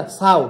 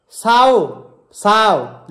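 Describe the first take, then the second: First: "साओ" short, the vowels run together; Kumaoni pronunciation. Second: "साओ" drawn out as spelled; read as written. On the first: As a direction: say "साओ" as one quick Kumaoni syllable. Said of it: "लेकिन साव नहीं होता". ("साओ" Kumaoni ढंग से, छोटा) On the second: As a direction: read "साओ" with both vowels full and long. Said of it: "ऐसे ये लिखा हुआ है". ("साओ" जैसा लिखा, खींचकर) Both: Shown as a demonstration.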